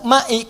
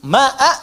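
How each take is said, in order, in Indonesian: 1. Kata itu diakhiri vokal i. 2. Kata itu diakhiri vokal a. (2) "pakai a"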